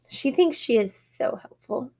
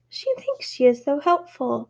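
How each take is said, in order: First: It is read in a mother's voice. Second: It is read in a child's voice. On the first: A parent is commenting on the dog. The speaker calls it wrong. "I read that as if I'm a mom" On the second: A child is commenting on the dog. The speaker calls it right. "Let me read it as a kid"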